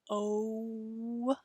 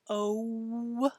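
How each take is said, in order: Both takes have the same delivery.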